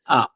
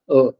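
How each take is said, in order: First: The vowel is said the French way. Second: The vowel is said the English way. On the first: The speaker calls it right. "It's proper A sound" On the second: The speaker calls it wrong. "It's not A like in English"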